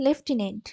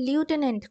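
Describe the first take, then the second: First: The first syllable sounds like 'lef'. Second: The first syllable sounds like 'loo'. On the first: The speaker calls it right. "না এর উচ্চারণটা হচ্ছে লেফটেন্যান্ট" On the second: The speaker calls it wrong. "অনেকে কিন্তু লিউটেন্যান্ট করে"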